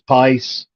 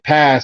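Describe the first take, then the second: First: The vowel sounds like the word eye. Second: The vowel is a plain short a sound. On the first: "he says pice" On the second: "he don't say pass"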